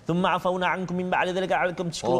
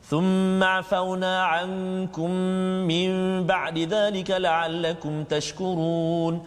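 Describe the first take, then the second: First: It is very fast and swallows some sounds. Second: It is fast but keeps nasal and long vowels. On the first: The speaker calls it wrong. "Kalau laju sangat" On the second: The speaker calls it right. "dia ada lagi dengung dua harakat, ha. Ha, panjang dia mat dan sebagainya, eh, bacaan cepat macam tu"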